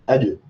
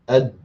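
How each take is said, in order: First: The final consonant ends with a short bouncing echo. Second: The final consonant is held and cut off silently. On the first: The speaker calls it right. "just straight away letting go ... like the beat of a drum almost" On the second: The speaker calls it wrong. "It would be incorrect to say ... without any qalqal"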